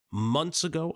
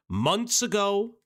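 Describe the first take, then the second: First: Said in the usual way. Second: Months ago, slow and raised, stressing ago; slow stressed emphasis. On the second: Shown as a demonstration. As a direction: lean on ago, slowly. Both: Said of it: "for those asking the question".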